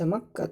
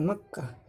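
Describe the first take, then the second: First: "Makkah" said as "Makkata", with the ending sounded; connected-form ending. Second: "Makkah" stopped on a soft h, without the ta; pausal-form ending. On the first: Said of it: "atau bisa dibaca Makkah". ("Makkah" dibaca sambung: Makkata) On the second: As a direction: end "Makkah" in waqf, as makkah. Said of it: "bisa diwakafkan Makkah". ("Makkah" diwakafkan, berakhir bunyi h) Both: Shown as a demonstration.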